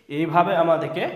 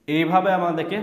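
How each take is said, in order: Both takes have the same delivery.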